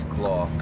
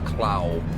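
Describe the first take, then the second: First: The vowel sounds like the one in 'saw'. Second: The vowel sounds like the one in 'cow'. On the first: This is how the owner says the name. "I've always pronounced it as Claw" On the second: This is how other people read the name. "everyone always thinks it is Clow"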